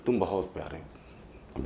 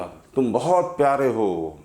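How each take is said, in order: First: A much softer, slow, faraway repeat of the line; soft echo. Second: Gentle loving call. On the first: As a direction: let it fade back like an echo off the hills. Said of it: "इको होके दोबारा आई". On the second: Father speaks kindly to hillside. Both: Acted.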